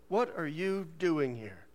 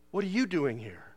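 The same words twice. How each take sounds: First: Drawn-out, every word separated; slow disapproving usher. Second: Said in the usual way. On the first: Retold or imitated. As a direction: quote the usher slowly and pointedly. Usher's line repeated for effect.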